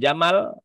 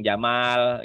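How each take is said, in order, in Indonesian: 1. Vokal kedua dibaca pendek. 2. Vokal kedua dibaca panjang. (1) "Jamal pendek artinya onta" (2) "bacanya panjang"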